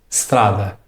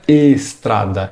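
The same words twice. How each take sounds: First: The word starts directly with the S sound. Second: An 'i' vowel sound is added before the S. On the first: The speaker calls it right. "Você deve soltar o som da letra S diretamente" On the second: The speaker calls it wrong. "Você não pode colocar um som de I ou de E antes do S"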